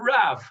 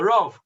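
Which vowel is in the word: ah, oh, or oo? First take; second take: ah; oh. First: The vowel sounds like ah. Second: The vowel sounds like oh. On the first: This is the modern Hebrew pronunciation. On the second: "we would call the Rav"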